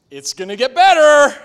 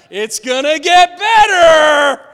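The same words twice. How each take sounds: First: Bright, loud, upbeat mock reassurance; loud, sing-song "It's gonna get better"; Joyful Joe cheer. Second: Loud, higher, slow hammed-up cheer; over-the-top shouted "better"; mock cheerful shout. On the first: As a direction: chirp it like the relentlessly cheerful friend. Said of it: "they tell us". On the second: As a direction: shout it like a pushy optimist. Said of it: "Joyful Joe or Happy Hannah".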